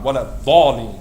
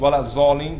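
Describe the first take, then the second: First: The second word begins with a th sound. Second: The second word begins with a z sound. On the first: The speaker calls it right. "That's dhal. It's not za" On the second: The speaker calls it wrong. "That's not the Quran"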